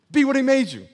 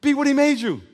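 Both takes have the same delivery.

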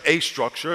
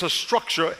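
First: "a structure" with a full, stressed "a", said as AY. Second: Said in the usual way. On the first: Shown as a demonstration. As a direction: lean on the article "a" in "a structure". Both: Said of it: "it's not the only structure".

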